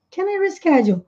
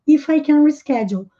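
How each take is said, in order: First: "Can I reschedule?" lifted high on "I"; direct question. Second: "If I can reschedule" falling, not a question; no question tune. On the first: Teacher models the casual direct question. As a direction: ask it straight and informal. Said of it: "tomem muito cuidado com quem". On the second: Teacher shows an indirect question without rising tune. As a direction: say it flat-falling like a statement. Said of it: "não faz nem a entonação de pergunta". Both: Shown as a demonstration.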